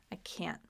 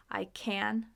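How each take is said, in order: First: CAN'T dropped low and cut short; abrupt can't. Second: CAN held and stressed, full vowel. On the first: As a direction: let CAN'T hit and stop, final t swallowed. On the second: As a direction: lean on CAN and let it ring. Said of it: "there's stress a little bit". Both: Shown as a demonstration.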